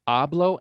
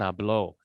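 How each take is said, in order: First: "Hablo" as AH-blo, first syllable stressed. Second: "hablo" as ah-BLO, final syllable stressed; stress on last syllable. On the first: Teacher showing Spanish stress matters, "Hablo" stressed up front. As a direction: hit AH in "Hablo". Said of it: "absolutely different". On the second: Teacher showing Spanish stress matters, "hablo" stressed on the end. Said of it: "syllable gets the emphasis". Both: Shown as a demonstration.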